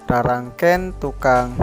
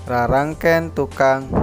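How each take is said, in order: Both takes have the same delivery.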